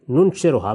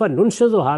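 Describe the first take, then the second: First: ننشرھا said "nunshiruha", r replacing z; ننشرھا with r in place of z; misreading with r. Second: ننشزھا said "nunshizuha", with a z; ننشزھا keeping the z sound; original reading with z. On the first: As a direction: say ننشرھا as "nun-shi-ru-ha". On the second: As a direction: say ننشزھا as "nun-shi-zu-ha". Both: Shown as a demonstration. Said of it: "اسی طریقے سے ننشرھا پڑھا".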